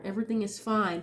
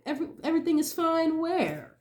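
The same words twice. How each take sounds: First: Said in the usual way. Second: Higher mocking everything is fine; sarcastic disbelief. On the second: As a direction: scoff at the claim. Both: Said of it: "fake everything is fine energy".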